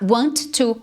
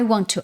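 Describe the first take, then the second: First: The T sound is said twice, separately. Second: One T is dropped and the words link. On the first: "você não precisa falar o T duas vezes" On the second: "Você pode simplesmente derrubar esse T aqui, tá? E aí você já linka direto com o to"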